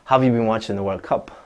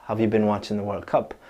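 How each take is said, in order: First: The small words are weakened with reduced vowels. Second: The small words are weakened with reduced vowels.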